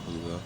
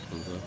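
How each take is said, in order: Both takes have the same delivery.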